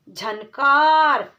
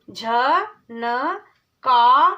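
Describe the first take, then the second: First: झनकार said whole and firm; whole word. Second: झनकार drawn out very slowly, syllable by syllable. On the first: Teacher blending झनकार. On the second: Teacher sounding out झनकार. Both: Shown as a demonstration. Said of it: "चार वर्णों वाले शब्द".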